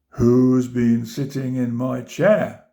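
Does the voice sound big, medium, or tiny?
big. It is said in a big, deep voice. "he cried in his big voice"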